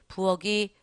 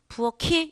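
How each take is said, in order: First: The final syllable starts with a soft g. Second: The final syllable starts with an aspirated k. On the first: The speaker calls it wrong. "부어기 틀려요" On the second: The speaker calls it right. "이렇게 되는 겁니다"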